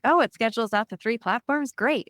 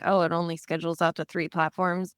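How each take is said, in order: First: It sounds pleased and enthusiastic. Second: It sounds disappointed and complaining.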